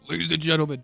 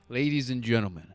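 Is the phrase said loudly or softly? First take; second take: loudly; softly. First: The phrase is said at a louder volume. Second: The phrase is said at a normal volume.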